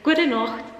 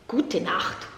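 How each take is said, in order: First: It uses the Austrian Bavarian pronunciation. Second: It uses the harsher standard German pronunciation.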